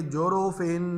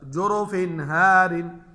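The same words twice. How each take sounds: First: "जोरोफिन" with the final n held in the nose; wrong ghunna. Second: Loud, slow "जोरोफिन हारिन" with a clear n; clear izhar. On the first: Teacher shows students the mistake, long nasal n ending "जोरोफिन". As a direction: hum on at the end of "जोरोफिन". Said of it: "ये नहीं पढ़ेंगे". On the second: Teacher corrects the wrong reading for students, clear n in "जोरोफिन हारिन". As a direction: go straight from "जोरोफिन" to "हारिन", no hum. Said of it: "नहीं, गलत". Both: Shown as a demonstration.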